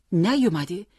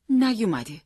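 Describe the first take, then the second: First: نیومده louder, rising into a question; disbelieving echo. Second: نیومده high, then falling to a close; falling statement. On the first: Father echoing the news, disbelieving rise on نیومده. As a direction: throw نیومده back as a startled question. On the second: Mother reporting son not home, falling tone on نیومده. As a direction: state نیومده as news, pitch dropping. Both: A narrator's reading.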